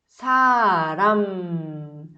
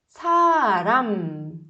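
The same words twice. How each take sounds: First: The word ends with the lips closed on m. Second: The same.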